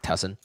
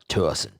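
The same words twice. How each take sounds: First: It is said plainly, without a drawl. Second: It is said with a slow, stretched drawl.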